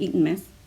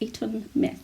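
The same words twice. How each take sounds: First: The phrase is said quickly in a local accent. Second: The phrase is said slowly and carefully. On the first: "how we would normally say it here in Northern Ireland ... It would be so fast" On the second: "I say that really, really weird"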